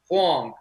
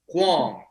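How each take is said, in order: First: The name is said with a 'hwahng' sound. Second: The same.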